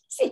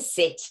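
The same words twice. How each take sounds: First: It sounds unsure and pleading. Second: It sounds firm and decisive. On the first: The owner does not mean it. The speaker calls it wrong. "Don't say" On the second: The owner means it. The speaker calls it right. "say it like you mean it"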